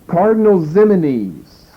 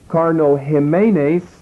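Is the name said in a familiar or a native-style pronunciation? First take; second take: familiar; native-style. First: The name is said in an easier, familiar form. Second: The name is said in a harder, native-style form. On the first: The speaker calls it wrong. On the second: The speaker calls it right.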